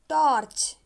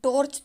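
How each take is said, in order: First: The first vowel falls between 'aa' and 'o'. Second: The first vowel sounds like a pure 'o'. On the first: The speaker calls it right. "यानी कि आ और ओ के बीच की ध्वनि" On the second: The speaker calls it wrong. "हम टॉर्च तो नहीं बोलते"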